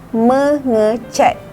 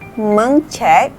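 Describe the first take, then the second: First: A short vowel is heard between meng and cat. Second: No vowel is heard between meng and cat. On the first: The speaker calls it right. "Kita perlu menambah huruf i" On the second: The speaker calls it wrong.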